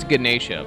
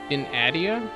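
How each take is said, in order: First: The first syllable does not sound like gin. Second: The first syllable sounds like the word gin. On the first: This is how the name is actually pronounced. The speaker calls it right. "Obviously, it's Ganesha" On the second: This is how the spelling looks without knowing better. The speaker calls it wrong. "that a hundred percent looks like gin"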